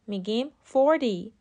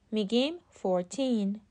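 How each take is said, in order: First: Forty with the first syllable hit hard, FOR-ty; forty with the stress on the first syllable. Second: Put-on fourteen slow, weight on the second syllable, four-TEEN; stress on TEEN. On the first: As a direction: lean on FOR in forty. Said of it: "استرس کلمهٔ forty ... روی سیلاب اوله". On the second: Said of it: "استرس کلمهٔ fourteen ... روی سیلاب دومه". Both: Shown as a demonstration.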